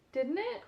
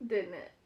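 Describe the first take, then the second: First: "Didn't it?" asked with a high rising tune; "Didn't it?" asked unsure, pitch rising high on "it"; rising question. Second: "Didn't it?" said lower with a falling tune; "Didn't it?" as a falling, self-answering tag; falling confirmation. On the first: Asks herself, then confirms. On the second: Answers her own question. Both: Real, not acted.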